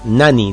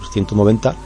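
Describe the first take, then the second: First: The t sound is dropped, sounding like nani. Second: The t sound is pronounced in the word. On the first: "nani directamente, nani, como suena" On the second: "en lugar de decir 190"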